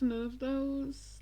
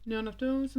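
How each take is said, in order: First: Slow and drawn out. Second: Said in the usual way. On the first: Real, not acted. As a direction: stretch none out slowly.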